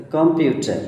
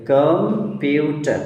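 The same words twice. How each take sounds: First: Said in the usual way. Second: computer drawn out in separate syllables; split at the hyphens. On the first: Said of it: "তাহলে computer". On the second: Shown as a demonstration. Teacher reads the hyphenated word, broken into syllables. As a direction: hold the first syllable of computer, then the rest. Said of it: "hyphen দিয়ে যুক্ত করেছে".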